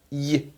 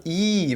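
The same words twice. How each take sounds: First: "I" cut short, a quick semivowel "y"; a brief, soft little "I". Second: A long, full "I", held as "eee"; "I" drawn out fully; full vowel I. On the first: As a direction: say "I" as half a vowel. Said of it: "Bem mais curto". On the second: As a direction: hold the "I" as a whole vowel. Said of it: "vai ter o som pleno de I". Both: Shown as a demonstration.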